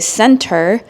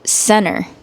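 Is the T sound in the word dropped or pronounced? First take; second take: pronounced; dropped. First: The T sound in the middle is pronounced. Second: The T sound in the middle is dropped. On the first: "fully pronounce all of the letters, including the T" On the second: "I did not pronounce the letter T"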